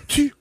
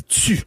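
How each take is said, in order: First: Tu with a bare hard T; non-Quebec T. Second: Tu said as tsu; Quebec T. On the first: Showing newcomers the wrong way, tu with plain T. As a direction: say tu with no z or s after the T. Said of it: "on dit pas tu". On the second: Showing newcomers the local way, tu as tsu. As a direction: release the T of tu into a hiss, tsu. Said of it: "on dit tu". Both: Shown as a demonstration.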